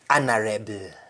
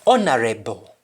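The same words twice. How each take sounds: First: It is said in a Jamaican accent. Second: It is said in an English accent. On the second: "Rather English"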